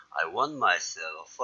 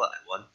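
First: "want" said as "wan", final T silent; "want" with no T, run into "myself"; dropped T. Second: "want" with a clear final T; "want" ending on a hard T before the next word; T sounded. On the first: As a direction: let the T in "want" fall away, "wan myself". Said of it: "I want 하지 마시고, T 발음". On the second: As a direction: pronounce the T at the end of "want" crisply. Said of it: "그때 오면 하지 마세요". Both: Shown as a demonstration.

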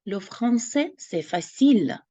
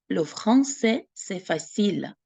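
First: Teacher demonstrating French; French modelling. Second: Second take of Le français, c'est facile, fading at the end; teacher repeating the French phrase. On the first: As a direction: model the phrase for learners. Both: Shown as a demonstration. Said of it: "що французька — це легко".

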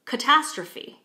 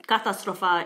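First: "catastrophe" with stress on "tas"; weak first and third vowels in "catastrophe"; English pronunciation. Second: "katastrofa" in Czech, with full "a" and "o" vowels; Czech pronunciation. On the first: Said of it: "when we say it in English". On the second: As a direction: keep every vowel clear in "katastrofa". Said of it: "in Czech". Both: Shown as a demonstration.

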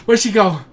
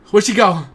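No difference in how they are said.

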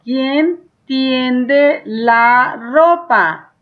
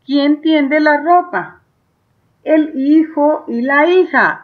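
First: ¿quién tiende la ropa? stretched out word by word, very slow; teacher dictating the question; very slow dictation. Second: Teacher rereading the question; slower reading. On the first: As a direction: draw out every word for the child to copy. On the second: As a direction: read the question back at a steady, careful pace. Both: Shown as a demonstration. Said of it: "Y ahora".

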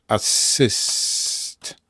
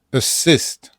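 First: "assist" very slow with a long held S; stretched double S. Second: "Assist" in one piece, second syllable stressed. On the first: Teacher showing why S is doubled, slow stretched consonant. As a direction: hiss out the S in "assist" before the stress. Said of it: "Nieakcentowana A". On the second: Teacher showing the accented second vowel, stressed syllable. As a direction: hit the "sist" in "Assist". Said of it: "akcentuje się nie, nie pierwszą". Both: Shown as a demonstration.

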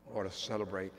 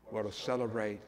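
No difference in how they are said.

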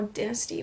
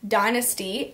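First: "Dynasty" said DIN-uh-stee; "Dynasty" with a short i, as in "dinner"; short-i pronunciation. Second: "Dynasty" said DIE-nuh-stee; "Dynasty" with a long i, as in "dine"; long-i pronunciation. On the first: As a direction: say the first syllable of "Dynasty" like "din". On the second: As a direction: say the first syllable of "Dynasty" like "die". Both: Shown as a demonstration. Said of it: "whatever the hell, the hell you say it".

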